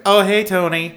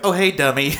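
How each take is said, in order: First: High, loud greeting as in the film; "Oh, hey, Tony" in a high, mocking impression; imitating the film's audio. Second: "Tony" slurred into "dummy", pitched up; high mock greeting with TONY turned into "dummy"; misheard-audio imitation. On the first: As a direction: mimic her badly recorded greeting to TONY, pitched up. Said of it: "the way it sounds every time". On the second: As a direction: say "dummy" as the misheard name, in a raised voice. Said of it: "it always sounds like".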